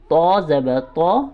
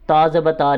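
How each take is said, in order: First: The letter name is said fully, with its whole sound. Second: The letter name is said clipped, only half. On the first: The speaker calls it right. "पूरा लफ्ज़ अदा करेंगे" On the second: The speaker calls it wrong. "ऐसे भी नहीं पढ़ना"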